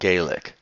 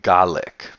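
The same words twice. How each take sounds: First: The word is given its Irish pronunciation. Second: The word is given its Scottish pronunciation. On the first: This is the name used in Ireland. "not Gaelic" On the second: This is the name used in Scotland. "in Scotland it is Gaelic"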